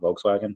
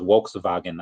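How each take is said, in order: First: The name is said with American English pronunciation. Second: The name is said with German pronunciation. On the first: The speaker calls it wrong. "not Volkswagen" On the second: The speaker calls it right. "I think it's pronounced Volkswagen as well"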